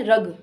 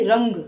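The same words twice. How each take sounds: First: रग repeated with a plain oral vowel; रग firmly, going straight from vowel to g; no nasal sound. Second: रंग with an ng sound before the final g; nasal sound added. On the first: Teacher repeats the word without a dot, रग with no nasal. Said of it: "इसमें किसी प्रकार की कोई बिंदी नहीं लगी". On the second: Teacher adds the dot, रंग with a clear nasal. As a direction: let रंग hum through the nose before the g. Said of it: "अंग की बिंदु लगा दूँ तो मैं बोलूँगी". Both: Shown as a demonstration.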